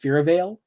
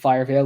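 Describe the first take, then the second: First: The first syllable sounds like 'fear'. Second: The first syllable sounds like 'fire'. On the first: The speaker calls it right. "I think it's supposed to be pronounced Fearvale" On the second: The speaker calls it wrong. "calling it Firevale would be fucking stupid"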